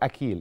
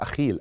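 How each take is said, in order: First: The middle consonant is a hard k sound. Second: The middle consonant is a raspy kh sound. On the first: "هي تنطق بحرف الكي" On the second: "حسب ما بتنطق بالعربية"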